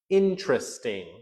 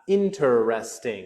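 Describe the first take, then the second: First: The word is said with three syllables. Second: The word is said with four syllables. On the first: "It would be three" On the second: "That's four"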